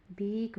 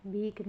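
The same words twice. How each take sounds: First: भीख slow, ending in breathy "kh"; correct, aspirated. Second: भीख ending in a hard "k"; wrong, unaspirated. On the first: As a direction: puff out the end of भीख. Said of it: "होता है". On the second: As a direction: say भीख as "bheek", no puff. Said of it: "नहीं होता". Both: Shown as a demonstration.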